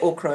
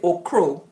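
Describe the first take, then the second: First: The word ends with an 'ah' vowel. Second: The word ends with an 'oh' vowel. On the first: This is the usual form elsewhere. "We don't even say okra in Trinidad" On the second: This is how people in Trinidad say it. "We say okro"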